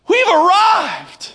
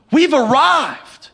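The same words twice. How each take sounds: First: Higher, slow, shouted proclamation of triumph; slow, soaring shout of triumph; mock triumph. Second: Mock triumph. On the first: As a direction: crow it out like you've conquered the world.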